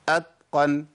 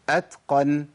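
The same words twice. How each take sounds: First: The t sounds voiced, close to a d. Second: The t is released with audible breath. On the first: The speaker calls it wrong. "بين الدال والتاء حرف بالاتنين، قريب من الدال قوي" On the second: The speaker calls it right. "اسمعوا الهمس"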